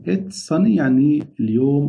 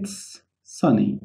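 First: Said in the usual way. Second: It's sunny said very slowly and softly; slow teacher demo; slow model phrase. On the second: Shown as a demonstration. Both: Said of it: "هنا بنقول إيه؟".

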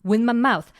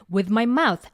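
First: "with" clipped to "wi", th dropped, run into "my mouth"; linked with. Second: "with" said fully, its th sounded before "my mouth"; full with. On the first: Teacher showing the fast version, th of "with" dropped. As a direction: slur "with my mouth" together smoothly. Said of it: "이게 아니고 with my mouth". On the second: Teacher giving the careful version, "with" fully pronounced. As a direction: sound every part of "with". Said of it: "이렇게 쓰셔도 틀리는 건 아니지만". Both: Shown as a demonstration.

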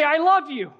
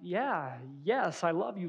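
First: High, loud declaration of love; excited. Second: Soft, mildly uneasy reassurance; a little nervous. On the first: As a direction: blurt it out with raised, eager voice. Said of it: "and you're, like, excited". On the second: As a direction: answer quietly, slightly unsure of yourself. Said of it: "a little nervous in your reply". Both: Acted.

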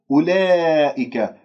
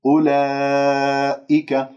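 First: أولئك with the long aa bent toward e; wrong-example أولئك with fronted long vowel; tilted alif. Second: أولئك with a pure, open, long aa; measured recitation of أولئك, easy hamza; untilted alif. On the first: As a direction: say أولئك slowly, tilting the alif to "ee-leh". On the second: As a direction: hold the alif of أولئك level and open, very slowly. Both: Shown as a demonstration. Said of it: "لا تمل صوت الألف".

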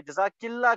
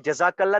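First: जज़ाकिल्ला with an 'i' after the k; feminine ending -killah. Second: जज़ाकल्ला with an 'a' after the k; masculine ending -kallah. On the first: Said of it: "सब लोग ही गलत बोल रहे थे". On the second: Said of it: "जज़ाकल्ला मतलब तू एक मर्द को". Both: Shown as a demonstration.

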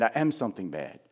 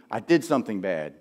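First: "am" stressed in a soft, low voice. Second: Weight on "did" in a lower voice; stress on did. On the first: Preacher contrasting shame with guilt, stress on "am". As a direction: lean on "am", then fall away. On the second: Preacher contrasting guilt with shame, stress on "did". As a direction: lean on "did", then fall away. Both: Shown as a demonstration.

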